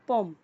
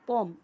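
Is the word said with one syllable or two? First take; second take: one; one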